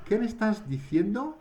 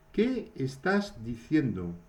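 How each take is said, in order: First: High, surprised "¿Qué me estás diciendo?"; as if you didn't catch what was said. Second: Said in the usual way. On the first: Shown as a demonstration. Teacher demos a surprised question for students. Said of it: "on a la surprise". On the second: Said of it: "Qu'est-ce que tu es en train de dire".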